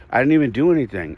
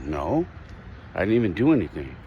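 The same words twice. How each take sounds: First: Retold kid's protest, quick and higher; indignant child's protest. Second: Subdued retold protest; upset child. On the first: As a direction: protest like a wrongly blamed kid, mildly heated. Little son protests in the quarrel. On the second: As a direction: quote a hurt kid without raising the voice. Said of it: "he was upset".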